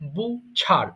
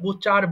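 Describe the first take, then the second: First: The middle 'ch' sound is aspirated, breathy. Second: The middle 'ch' sound is plain, without aspiration. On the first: "অবশ্যই ছ উচ্চারণ করবেন" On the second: "এটাকে আমরা বুচার বলি"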